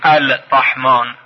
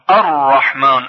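First: The L sound is pronounced before the r. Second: The L sound is silent, merging into the r. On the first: The speaker calls it wrong. "یعنی نمیگویم الرحمن" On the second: The speaker calls it right. "لام حذف میشه، ناخوانا هست"

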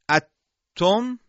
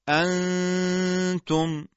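First: The n disappears into a doubled t sound. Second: The n is a nasal hum without tongue contact. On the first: The speaker calls it wrong. "این ادغامه" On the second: The speaker calls it right. "بلکه میگیم انتم"

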